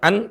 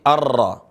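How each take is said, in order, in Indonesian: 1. Bunyi n diucapkan dengan jelas. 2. Bunyi n melebur menjadi bunyi r yang dobel. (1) "bukan an" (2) "tapi arra"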